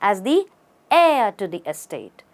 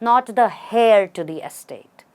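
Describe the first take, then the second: First: Heir starts with a vowel, no H sound. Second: Heir starts with an audible H sound. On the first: The speaker calls it right. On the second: The speaker calls it wrong.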